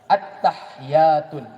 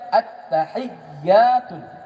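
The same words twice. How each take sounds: First: One letter is said with no vowel after it. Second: Each letter keeps its vowel, with a doubled ya. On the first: The speaker calls it wrong. "mati sukun salah" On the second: The speaker calls it right. "Yang betul"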